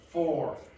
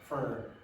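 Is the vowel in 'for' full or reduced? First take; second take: full; reduced. First: The vowel is a full 'or' sound. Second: The vowel is reduced, like 'fur'. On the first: The speaker calls it wrong. "It's not for" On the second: The speaker calls it right. "This is more like uh for me, fur, fur"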